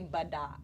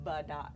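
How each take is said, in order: First: A schwa vowel is pronounced within the word. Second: A schwa vowel is pronounced within the word.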